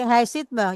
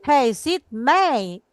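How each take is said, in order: First: The final pronoun is unstressed and reduced. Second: The final pronoun is stressed and full. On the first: The object just passes by without emphasis. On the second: The object is emphasized. "May mendapat tekanan"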